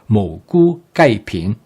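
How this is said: It is said with a native Cantonese pronunciation.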